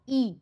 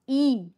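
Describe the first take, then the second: First: The vowel is short and ends quickly. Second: The vowel is long and drawn out. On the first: "लहान ई जेव्हा म्हणतात तेव्हा त्याचा उच्चार कसा होतो?" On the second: "मोठ्या ईचं जेव्हा आपण प्रोनाउन्सिएशन करतो"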